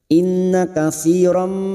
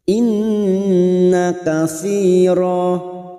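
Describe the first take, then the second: First: It ends on a nasal m sound. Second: It ends on a long a vowel. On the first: The reader continues into the next word. "sekarang kita wasal" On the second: The reader stops here. "Karena kita waqaf di sini, maka bunyinya katsira. Dua harakat kita panjangkan"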